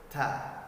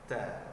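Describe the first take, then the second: First: The t is released with a strong puff of breath. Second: The t is released with a slight puff of breath. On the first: The speaker calls it wrong. "terlalu berlebihan" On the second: The speaker calls it right. "dia cuma berhembus sekedarnya saja"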